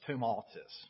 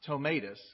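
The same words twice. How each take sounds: First: The name is pronounced the French way. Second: The name is pronounced the English way. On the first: The speaker calls it right. "because, you know, he's French. So it's Tomatis" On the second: The speaker calls it wrong. "not Tomatis"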